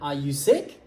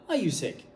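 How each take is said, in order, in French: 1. La voix monte à la fin. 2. La voix descend à la fin. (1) "Les yes-no questions. Le ton est ascendant" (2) "C'est pas Are you sick?"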